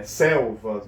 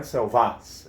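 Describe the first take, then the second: First: "selvas" as SEL-vas, first syllable drawn out; stress on first syllable. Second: "selvas" wrongly stressed as sel-VÁS; stress on last syllable. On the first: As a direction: lean slowly on the SEL of "selvas". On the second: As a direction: push the final syllable of "selvas". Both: Shown as a demonstration. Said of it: "É a penúltima".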